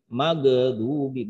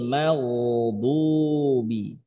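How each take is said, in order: First: The gh sound bounces with an added vowel. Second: The gh sound flows smoothly without bouncing. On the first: The speaker calls it wrong. "ghain itu tidak mantul suaranya, bukan mag magadubi" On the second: The speaker calls it right. "sifatnya rakhawah, mengalir"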